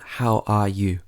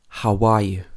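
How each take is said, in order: First: No glide sound between how and are. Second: A glide sound links how and are. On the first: The speaker calls it wrong. "Not how are you?" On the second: The speaker calls it right. "We would normally say, how are you?"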